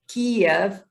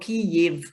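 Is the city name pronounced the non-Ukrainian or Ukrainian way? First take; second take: non-Ukrainian; Ukrainian. First: The name is said the non-Ukrainian way. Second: The name is said the Ukrainian way.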